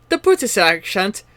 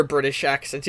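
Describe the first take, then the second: First: Mock British accent. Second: Said in the usual way. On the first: Shown as a demonstration. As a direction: put on a British accent for the demo. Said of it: "like the other British accent". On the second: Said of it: "there's like the British accent".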